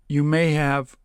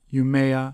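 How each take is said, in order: First: The word have is said in full. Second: The word have is reduced to a short vowel.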